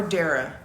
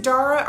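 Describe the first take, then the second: First: Dara pronounced DAIR-uh; first-syllable EH in Dara. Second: Dara pronounced DAH-ruh; first-syllable AH in Dara. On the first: Asking a viewer to tell them, Dara said as DAIR-uh. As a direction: make Dara start like "dare". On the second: Asking a viewer to tell them, Dara said as DAH-ruh. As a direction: open the first vowel of Dara to "ah". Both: Shown as a demonstration. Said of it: "make sure we're pronouncing your name right".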